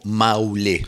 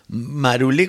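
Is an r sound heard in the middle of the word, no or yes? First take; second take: no; yes. First: The word is said without an r sound. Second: The word is said with an r sound. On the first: This is the name as it is sung, with the r dropped. "el nombre aparece pronunciado como Maulé" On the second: This is the name as it is written. "como aparece escrito"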